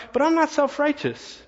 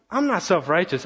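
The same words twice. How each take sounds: First: High, mock-indignant denial; indignant protest. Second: Said in the usual way. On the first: Pastor mocking his own defensive thought, indignant. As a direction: protest your innocence a little too much. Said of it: "But then I thought". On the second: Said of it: "God spoke to me and said".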